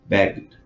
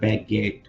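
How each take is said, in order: First: The ending is just a short D sound. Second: The ending is said as an extra syllable. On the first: The speaker calls it right. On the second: The speaker calls it wrong.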